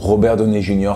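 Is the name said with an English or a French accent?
French. The name is said with French pronunciation.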